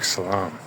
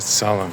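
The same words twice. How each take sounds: First: The vowels are open 'ah' sounds. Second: The vowels are schwas, sounding like 'solemn'. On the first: This is the original Arabic form. "the Arabic salam" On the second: This is the local Azerbaijani form. "they pronounce it salam, ... it sounds like the word solemn in English"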